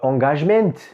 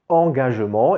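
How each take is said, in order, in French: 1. Le T final est prononcé. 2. Le T final est muet. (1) "le T doit se lire à la fin" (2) "on n'entend pas le T à la fin"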